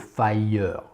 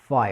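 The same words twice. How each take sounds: First: An extra vowel is sounded after the R. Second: No extra vowel follows the rounded R. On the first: The speaker calls it wrong. "On ne dira pas a fire. C'est moche, et puis c'est mal prononcé" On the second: The speaker calls it right. "On dit bien fire"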